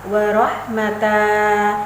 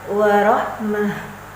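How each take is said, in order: First: The word ends on a lengthened a vowel. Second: The word ends on a silent h sound. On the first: The speaker calls it wrong. "itu contoh yang salah" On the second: The speaker calls it right. "Yang betul adalah"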